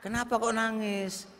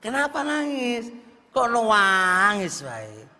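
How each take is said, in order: First: Bertanya lembut dan pelan, agak tinggi; suami bertanya pelan. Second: Tanya lebih tinggi dan lebih keras, mendesak; suami mendesak. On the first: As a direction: tirukan suami yang heran, suara ditahan. (suami bertanya lirih pada istri yang menangis) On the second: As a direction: tirukan suami yang makin penasaran. (suami mendesak istri yang terus menangis) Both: Retold or imitated. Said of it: "wae ditanya".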